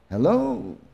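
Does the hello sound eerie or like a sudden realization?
eerie. It sounds eerie, expecting excitement.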